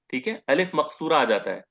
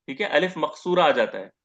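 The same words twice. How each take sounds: The two takes are said the same way.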